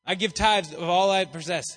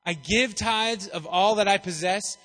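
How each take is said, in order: First: "tithes" pushed out loud and falling; emphasis on tithes. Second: Said in the usual way. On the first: Shown as a demonstration. Preacher rereading the verse, stressing "tithes". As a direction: land hard on "tithes".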